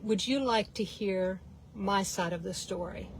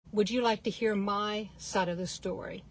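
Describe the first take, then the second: First: Quiet, even question with no edge; calm, not smart aleck. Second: Softer, steady sincere question; unflustered and calm. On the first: Mom asking the rude man calmly, quiet and sincere. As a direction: ask it gently, no sarcasm at all. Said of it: "she didn't say it with a smart aleck tone". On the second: Mom disarming the rude man in the elevator, soft and calm. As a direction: keep it calm and unbothered. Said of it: "wasn't all flustered". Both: Retold or imitated.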